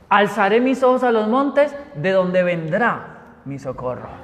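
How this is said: It ends with a falling, stating tune.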